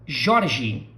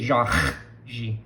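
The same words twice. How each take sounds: First: "Jorge" with a light tongue-tip R; southern tapped R. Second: "Jorge" with a long scraped h for R; Rio R as H. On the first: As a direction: tap the R in "Jorge", no h sound. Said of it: "So, Jorge". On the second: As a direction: exaggerate a throaty h in the middle of "Jorge". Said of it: "We don't say Jorge". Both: Shown as a demonstration.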